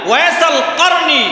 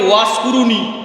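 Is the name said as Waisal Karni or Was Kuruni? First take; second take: Waisal Karni; Was Kuruni. First: The name is said as Waisal Karni. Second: The name is said as Was Kuruni. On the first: The speaker calls it right. "না ওয়াইসাল কারনী Al মুরাদি" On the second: The speaker calls it wrong. "এই যে আমরা অনেকে বলি ওয়াস কুরুনি"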